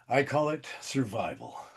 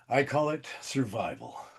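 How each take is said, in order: First: It is said in a low, seductive tone. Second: The same.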